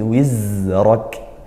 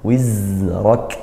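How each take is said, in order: The two takes are said the same way.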